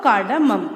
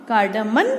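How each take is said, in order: First: कार्डामम ending in an M; final M sound. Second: कार्डामन ending in an N, rising; final N sound. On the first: Teacher reading out spelling choices, कार्डामम with final M. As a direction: say कार्डामम with a long second vowel and closed M. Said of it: "तो बताइए कौन सी spelling सही है?". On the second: Teacher reading out spelling choices, कार्डामन with final N. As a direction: say कार्डामन with a long second vowel and final N. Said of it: "क्या बोलते हैं इसको?". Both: Shown as a demonstration.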